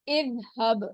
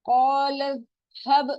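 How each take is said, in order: First: The word begins with an 'i' vowel. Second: The word is joined to the word before. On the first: Reading starts fresh at this word. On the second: Reading continues from the previous word.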